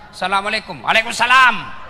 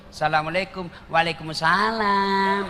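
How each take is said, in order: First: Loud, blunt greeting; mock stern woman on the phone; firm voice. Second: Imitating a sweet phone voice; mock sultry voice. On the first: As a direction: answer firmly, no softness. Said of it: "kasih tegas suaramu". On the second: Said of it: "jangan kau kasih syahdu suaramu".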